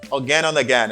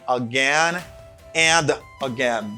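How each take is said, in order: First: The d in 'and' is dropped. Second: The d in 'and' is pronounced. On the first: "people say again and again... This letter D, uh, they don't like pronouncing it" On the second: "instead of saying again and again"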